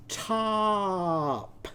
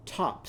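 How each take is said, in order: First: "top" drawn out long on a raised, held vowel; "top" with a very long, higher vowel; slow-motion word. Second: Said in the usual way. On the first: Shown as a demonstration. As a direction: stretch "top" slowly so every sound can be heard. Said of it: "say the word slowly and listen for the sounds". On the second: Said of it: "let's say the word slowly".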